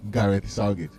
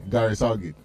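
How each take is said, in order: Both takes have the same delivery.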